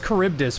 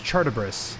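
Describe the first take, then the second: First: The name is pronounced in the usual standard way. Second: The name is pronounced with altered, garbled consonants. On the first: The speaker calls it right. "He says Charybdis" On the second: The speaker calls it wrong. "but he doesn't say it right. He says Chartibris"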